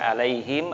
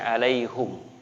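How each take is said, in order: First: The vowel before the final m is i. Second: The vowel before the final m is u. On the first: This is one accepted way of reciting the word. "ada yang membaca alaihim" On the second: This is another accepted way of reciting the word. "ada yang membaca alaihum"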